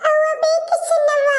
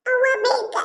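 First: Put-on much higher, slow wailing child's cry. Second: Put-on higher child's whimper for mother; child crying. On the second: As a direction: whine for mom like a small child. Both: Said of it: "ಅಳ್ಬಾರ್ದು".

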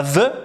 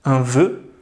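First: "vœu" with open eu, nearly "vè"; wrong pronunciation. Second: "vœu" with closed, rounded eu; lower-pitched model "vœu" with closed ø; correct pronunciation. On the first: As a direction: say "vœu" with a slack, open vowel. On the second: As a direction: round tightly on "vœu", as in "deux". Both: Shown as a demonstration. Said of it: "On dit pas vœu".

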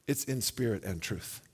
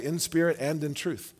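First: "in spirit and truth" with no in before truth, very soft and low; correct phrase. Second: "In spirit and in truth" with a separate in before truth, said low; preacher shows the wrong reading, with in said twice; misquoted phrase. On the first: Preacher to congregation, giving the correct verse, soft and emphatic. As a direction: quietly land the right wording, spirit and truth together. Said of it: "It's more emphatic than that". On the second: Preacher to congregation, demonstrating the common misquote, lightly stressed. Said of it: "Did you hear the difference?".

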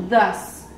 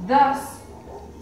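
First: "thus" with a voiced th, falling. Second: "Thus" stretched long and rising; drawn-out TH. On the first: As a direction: say "thus" like "dus". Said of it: "esta regla tiene una excepción". ("thus" con th sonora, como "dus") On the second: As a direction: hold the s at the end of "Thus". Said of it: "si pueden escuchar, tiene el sonido largo". ("Thus" alargado, con tono subiendo) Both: Shown as a demonstration.

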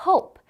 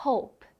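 First: Said in the usual way. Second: "hope" with the lips closing softly on the p; natural, unreleased p ending "hope"; unpopped final p. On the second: Shown as a demonstration. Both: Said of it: "입술을 너무 튕겨주지 말아볼까요".

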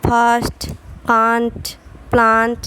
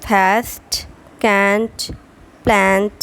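First: British long "ah" vowel in ফার্স্ট, কান্ট, প্লান্ট; British pronunciation. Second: American "æ" vowel in ফার্স্ট, ক্যান্ট, প্ল্যান্ট; American pronunciation. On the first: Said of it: "ওয়ার্ডের উচ্চারণ হবে". (British উচ্চারণে লম্বা "আ") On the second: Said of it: "American ওয়ার্ডের উচ্চারণ হবে". (American উচ্চারণে "অ্যা" স্বর) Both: Shown as a demonstration.

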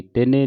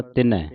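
First: ਤਿਨੇ with a closed "e" ending; mispronunciation demo. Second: ਤਿਨੈ with an open "ai" ending; correct pronunciation. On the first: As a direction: say ਤਿਨੇ as "ti-nay", narrow final vowel. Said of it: "ਤਿਨੇ ਨਹੀਂ ਪੜ੍ਹਨਾ". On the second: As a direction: say ਤਿਨੈ as "ti-nai", wide final vowel. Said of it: "ਤਿਨੈ ਦਲਾਵਾਂ ਦੇ ਨਾਲ". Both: Shown as a demonstration.

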